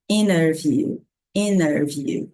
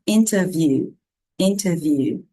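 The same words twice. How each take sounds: First: INNER VIEW with no T, slow and clear; T dropped. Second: INTERVIEW with a clear T; careful INTERVIEW, T sounded; T pronounced. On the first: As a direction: model INTERVIEW as "inner view". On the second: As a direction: model "interview" keeping the T after IN. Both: Shown as a demonstration. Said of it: "essas duas formas de falar".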